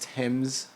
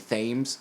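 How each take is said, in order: First: The word has a non-American pronunciation. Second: The word has an American pronunciation. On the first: "but I want to say it's" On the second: "as an American, we'd probably say"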